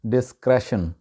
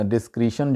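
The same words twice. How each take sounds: First: डिस्क्रेशन with "kresh" in the middle; correct pronunciation. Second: डिस्क्रिशन with "kree" in the middle. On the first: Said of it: "इसका जो सही तलफ़ुज़ है". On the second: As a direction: say डिस्क्रिशन as "dis-KREE-shun". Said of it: "Asia में जिस तरह से बोला जाता है". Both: Shown as a demonstration.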